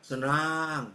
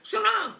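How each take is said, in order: First: The word is said flatly, with limp energy. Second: The word is said brightly, with lively energy. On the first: The happiness is not really felt. The speaker calls it wrong. "bukan senang, bukan begitu ya" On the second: The happiness is really felt. The speaker calls it right. "harus semangat"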